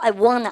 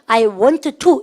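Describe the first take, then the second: First: Want and to blend together into wanna. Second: Want and to are said as separate words. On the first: The speaker calls it right. "조금 더 연음해서 I wanna, I wanna 이렇게 얘기한 거예요" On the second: The speaker calls it wrong. "이렇게 읽게 되면 리듬감이 떨어져서 되게 힘들어요"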